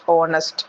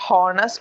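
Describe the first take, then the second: First: The word begins with a vowel, no H sound. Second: The word begins with an audible H sound. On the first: The speaker calls it right. "Their H is silent" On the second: The speaker calls it wrong. "No, it is not honest"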